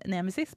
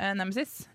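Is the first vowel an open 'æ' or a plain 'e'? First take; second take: plain e; open æ. First: The first vowel is a plain e sound. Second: The first vowel is an open æ sound. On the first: It is the standard form naming the Greek goddess. "den greske havgudinnen Nemesis" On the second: It is the local dialect form of the name. "det er jo den trønderske varianten"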